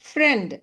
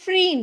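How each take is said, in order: First: The vowel is short, like 'e'. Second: The vowel is long, like 'ee'. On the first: The speaker calls it right. "கொஞ்சம் ஷார்ட்டாக" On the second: The speaker calls it wrong. "ஃப்ரீண்ட் அப்படி படிக்கக்கூடாது"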